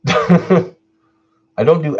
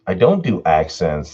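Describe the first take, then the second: First: Slow, laughing through the words. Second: Said in the usual way. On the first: Real, not acted. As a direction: chuckle while saying I don't do accents well. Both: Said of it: "I don't do accents well".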